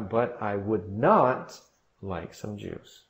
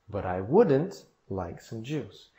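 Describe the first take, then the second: First: The negative is uncontracted with extra emphasis. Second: The negative is contracted with normal emphasis. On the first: The refusal is made more forceful. "para acrescentar até mais ênfase" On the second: A plain refusal. "a negativa"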